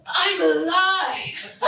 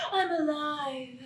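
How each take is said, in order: First: Laughing relief. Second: Awed hush. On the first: Daughter's breakthrough moment. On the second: Repeated after laughing. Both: Acted.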